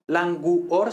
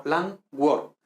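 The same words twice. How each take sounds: First: "languor" as lan-GU-or in three beats; U as separate syllable. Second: "languor" slowly as LAN-gwor; two beats, "languor" with a w glide; GUOR one syllable. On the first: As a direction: split U from O in "languor". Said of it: "no dos sílabas separadas". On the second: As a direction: merge U and O in "languor". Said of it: "forma una misma sílaba". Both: Shown as a demonstration.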